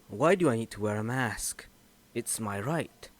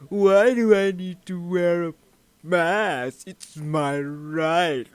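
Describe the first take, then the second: First: It sounds only mildly whiny and entitled. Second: It sounds extremely whiny and entitled.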